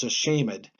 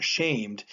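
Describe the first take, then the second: First: "a shamed" with -ed sounded as its own syllable; extra syllable. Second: "shamed" said as one syllable, silent e. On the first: Teacher shows Shakespeare's reading, "a shamed" with a sounded -ed. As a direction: say "a shamed" as a-SHAY-mid. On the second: Teacher shows the unwanted reading, "shamed" as one syllable. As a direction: say "shamed" with the -ed closed up. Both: Shown as a demonstration. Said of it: "we're going to pronounce that as a syllable".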